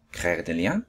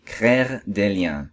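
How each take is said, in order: First: Softer, lower "Créer des liens" rising at the end; questioning echo. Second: Said in the usual way. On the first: Acted. Little Prince repeats the fox's explanation, questioning.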